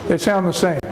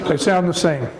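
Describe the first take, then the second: Both takes have the same delivery.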